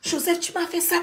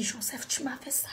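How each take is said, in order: First: Spoken aloud, pained; pained accusation repeated; voiced reproach. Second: Hushed, broken whisper of betrayal; betrayed whisper to the man; whispered reproach. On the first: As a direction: say it aloud, hurt. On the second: Retold or imitated. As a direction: whisper the accusation, devastated. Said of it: "J'ai dit".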